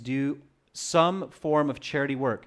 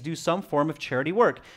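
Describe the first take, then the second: First: It is spoken more slowly and deliberately. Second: It is spoken at a normal, quicker pace.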